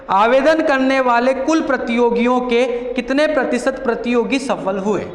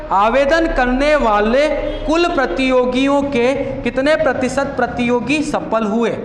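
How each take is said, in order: The two takes are said the same way.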